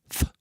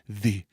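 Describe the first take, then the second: First: The th sound is unvoiced, only breath. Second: The th sound is voiced, with vocal buzz. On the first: "T H unvoiced, like thimble" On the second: "there is a way to be voiced with T H"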